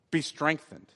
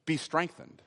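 Both takes have the same delivery.

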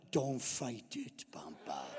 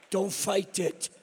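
First: Slow, hushed, low voice; mock hypnotic whisper. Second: Drawn-out words at normal volume; slow, voiced repeat. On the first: Granddaughter working fairy-dust magic on grandpa, slow mock-mystical whisper. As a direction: whisper it slowly like casting a spell. Child casting a spell on grandpa. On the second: Grandpa repeating granddaughter's spell to the audience, slow and voiced. Repeats the child's line for laughs.

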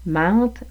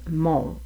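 First: "Mente" with open nasal "an", rising; "Mente", vowel clearly not "on". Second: "monte" with rounded "on", falling; "monte", vowel clearly not "an"; closed on. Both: Shown as a demonstration. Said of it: "la distinction entre".

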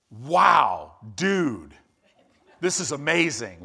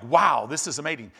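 First: Loud laid-back surfer dude Wow; a touch of Valley surfer drawl, Wow shouted out; Gabriel as California surfer. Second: The same line, composed and dignified, Wow a bit louder; a hint of stately angel awe; angelic leader. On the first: Retold or imitated. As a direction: play it like a chill California surfer who's stoked. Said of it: "if Gabriel was from California". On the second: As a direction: say it like a majestic angel, not a surfer. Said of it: "he's an angelic leader".

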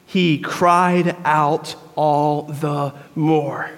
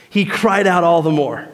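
First: Very slow, low, every word leaned on; slow, weighty emphasis. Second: Said in the usual way. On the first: Shown as a demonstration. Preacher dwelling on his favorite verse, slow and weighty. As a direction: let the phrase land heavily, word by word. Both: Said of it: "This is my favorite phrase".

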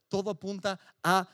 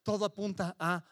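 Both takes have the same delivery.

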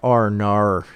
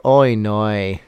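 First: Exaggerated Aussie "oh no" with ar-coloured vowels; Australian accent. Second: Exaggerated Kiwi "oh no" with oy vowels; New Zealand accent. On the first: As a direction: demonstrate a broad Australian accent. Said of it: "Australians are more like". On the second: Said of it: "New Zealanders are more like". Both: Shown as a demonstration.

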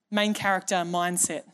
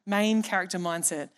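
Both takes have the same delivery.

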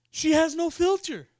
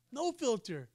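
First: Said in the usual way. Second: "No filter" dropped much softer; quiet aside. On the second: Shown as a demonstration. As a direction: mutter it to yourself as an echo.

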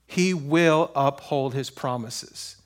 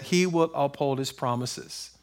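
First: WILL drawn out, every word slow and low; slow emphasis. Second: Said in the usual way. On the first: Real, not acted. Preacher assuring church of God's promises, slow emphasis. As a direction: weigh each word slowly, leaning on "will".

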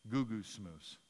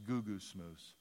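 First: Goo-goo smoose said low and slow as a foreign word; goo-goo smoose, spoken low with a falling end; Hebrew root word. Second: Goo-goo smoose repeated low and soft; Hebrew root word. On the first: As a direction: sound out goo-goo smoose syllable by syllable. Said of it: "The root word for that is". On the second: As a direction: say goo-goo smoose quietly, falling. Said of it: "Somebody who complains or whines". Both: Shown as a demonstration.

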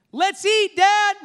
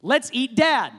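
First: High, bright-eyed eager call; eager happy tone. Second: Flat, reluctant delivery; grudging tone. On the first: Preacher showing kids' eager tone at dinner, high and excited. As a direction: say it like dinner's the best news. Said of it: "let me just tell you how important your tone is". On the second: Preacher showing a reluctant tone with the same words. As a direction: say it like you'd rather not. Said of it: "same words with different tones". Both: Shown as a demonstration.

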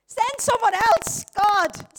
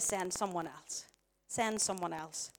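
First: Loud, high, drawn-out protest; exasperated plea. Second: Low, soft, slow plea; subdued refusal. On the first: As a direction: cry out to be let off. Acts protest to God. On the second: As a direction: drop right down and repeat it slowly. Quotes Moses's refusal, now subdued. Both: Acted.

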